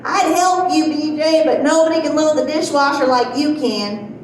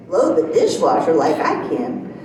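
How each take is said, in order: First: Mom calling out from the next room, higher at the start; mock yell. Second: Lower-pitched questioning echo, rising at the end; incredulous echo. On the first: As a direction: imitate mom hollering a compliment, only mildly raised. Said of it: "she's yelling at me". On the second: Retold or imitated. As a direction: throw mom's words back as a question. Echoes mom's words back as question.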